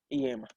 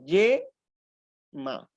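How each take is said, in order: First: The word begins with a vowel i sound. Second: The word begins with a consonant y sound. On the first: The speaker calls it wrong. "No, falso, falso, no" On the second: The speaker calls it right. "Aquí funciona como una consonante"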